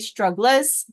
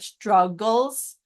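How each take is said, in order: First: The ending is said as a full 'less' syllable. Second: The ending is said as a reduced 'guls' syllable. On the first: It helps with remembering the spelling. "It's not really how it's pronounced, but it's good for spelling to say it like this" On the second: It is the normal everyday pronunciation. "which is how we pronounce it in English"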